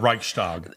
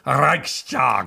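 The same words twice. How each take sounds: First: It is pronounced the English way. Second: It is pronounced the German way. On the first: The speaker calls it wrong. "this is the anglicized version" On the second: The speaker calls it right. "a German would say to me, no, it's Reichstag"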